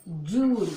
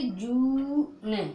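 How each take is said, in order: First: "जून" loud, as one long-oo syllable; blended word. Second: Slow "जू ने", long oo then separate n; sounded out. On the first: Teacher answers own drill question, blended louder "जून". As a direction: say "जून" firmly, joined up. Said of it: "क्या पढ़ोगे". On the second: Teacher shows how it is read, sounded out "जू ने". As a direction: stretch "जू" before releasing the n. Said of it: "तो इसको पढ़ोगे जू ने". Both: Shown as a demonstration.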